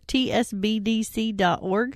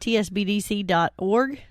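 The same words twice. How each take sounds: First: It is said more slowly. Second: It is said quickly.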